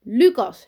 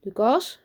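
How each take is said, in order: First: Much louder, higher, falling echo; emphatic repeat. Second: Put-on higher, rising boy's answer; brave. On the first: Teacher repeats the new boy's name, loudly emphatic. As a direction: announce the name back with force. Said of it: "herhaalt juf Brakel". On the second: New boy tells the school his name, bravely. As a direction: give the name up bravely with a lift. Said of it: "zegt hij dapper". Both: A narrator's reading.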